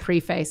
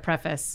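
First: The second syllable sounds like the word face. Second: The second syllable is reduced, like fiss. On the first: The speaker calls it wrong. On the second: The speaker calls it right.

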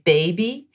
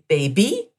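First: The stress is on the first syllable. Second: The stress is on the last syllable. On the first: "in English, we tend to emphasize the first part of a word" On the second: "So the accent is on the end of the word"

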